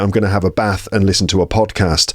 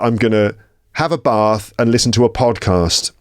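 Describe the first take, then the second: First: It is said in a northern English accent. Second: It is said in a southern English accent. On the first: "in the sort of northern half of England, it would be" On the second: "That would be in the south of England"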